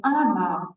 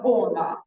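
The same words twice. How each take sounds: First: Она with the first vowel said as ah, ana; unstressed o reduced to ah in она; Russian она. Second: Она with a full round o, ona; the o in она kept round and clear; she says it is wrong. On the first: Teacher showing the reduced vowel to a student. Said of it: "but we say она". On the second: Teacher showing the wrong pronunciation to a student. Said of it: "not она". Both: Shown as a demonstration.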